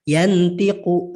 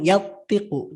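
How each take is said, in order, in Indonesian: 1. Bunyi n diucapkan penuh dan jelas. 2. Bunyi n dihilangkan sama sekali. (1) "Harusnya kan yantiqu" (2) "nunnya seolah-olah tidak ada"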